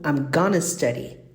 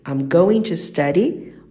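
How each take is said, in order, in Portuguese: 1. As palavras going to são reduzidas para gonna. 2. As palavras going to são ditas por extenso.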